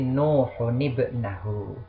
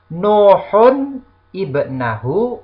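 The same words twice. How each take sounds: First: The words are linked with an added 'ni' sound. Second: The words are said without a linking nun.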